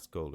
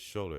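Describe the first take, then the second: First: The name begins with an 'sk' sound. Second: The name begins with an 'sh' sound. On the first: The speaker calls it wrong. "It's not Scholar" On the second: The speaker calls it right. "It's Scholar. It's S H U L E R"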